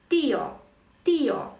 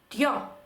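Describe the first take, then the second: First: The vowels are split, stressing the first one. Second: The two vowels merge into one syllable. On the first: The speaker calls it right. "розбивається наш дифтонг, і нам потрібно поставити наголос саме на і" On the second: The speaker calls it wrong. "за правилами читання ми прочитали би тьо, злили б"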